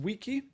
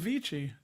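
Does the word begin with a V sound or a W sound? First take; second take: W sound; V sound. First: The word begins with a W sound. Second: The word begins with a V sound.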